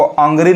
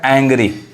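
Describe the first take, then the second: First: The first vowel sounds like 'uh'. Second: The first vowel sounds like 'a' in cat. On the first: The speaker calls it wrong. "वो अंग्री नहीं पढ़ाएगा" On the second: The speaker calls it right. "अब यहाँ क्या पढ़ाएगा"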